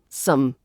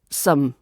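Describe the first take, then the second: First: The vowel is reduced and quickly pronounced. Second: The vowel is reduced and quickly pronounced.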